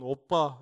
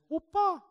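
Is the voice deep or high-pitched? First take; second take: deep; high-pitched. First: It is said in a deep, thick voice. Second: It is said in a high, thin voice. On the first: "중저음의 굵은" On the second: "이런 하이톤의 얇은 목소리"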